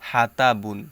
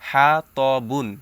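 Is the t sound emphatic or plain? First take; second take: plain; emphatic. First: The t sound is light and plain. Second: The t sound is heavy and emphatic. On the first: The speaker calls it wrong. "অনেকে বলে হাতা বুন, না হাতা বুন হবে না" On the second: The speaker calls it right. "এখানে তয়ের উচ্চারণটাই করতে হবে"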